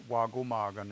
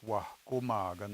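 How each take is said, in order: First: It is said without the breathy h sound. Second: It is said with a breathy h sound. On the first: The speaker calls it wrong. "it's not" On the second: The speaker calls it right. "you have to pronounce that H in order for that to be correct"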